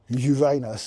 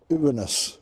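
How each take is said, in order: First: It uses the older, funnier-sounding pronunciation. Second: It uses the newer, current pronunciation. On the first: This is how people used to say it. "they stopped saying Uranus" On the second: This is how people say it now. "What do they say now?"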